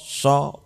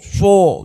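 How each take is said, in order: First: The vowel is only moderately rounded. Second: The vowel is overly rounded. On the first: The speaker calls it right. "Tidak usah terlalu moncong" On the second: The speaker calls it wrong. "tidak kho, so, do, jangan begitu. Yaitu keterlaluan"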